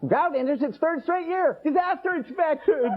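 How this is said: It is read in a happy tone.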